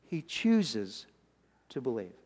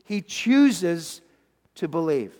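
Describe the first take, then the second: First: Hushed repeat. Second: Said in the usual way. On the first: Acted. Repeated line, dropped to a hush.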